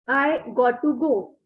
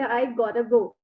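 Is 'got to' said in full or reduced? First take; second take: full; reduced. First: Both words 'got to' are said in full. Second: 'Got to' is reduced to 'gotta'.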